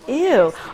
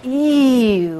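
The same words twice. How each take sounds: First: The word is said short, with emphasis. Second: The word is stretched out long. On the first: "with a certain emphasis" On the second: "I've even tried to make it longer"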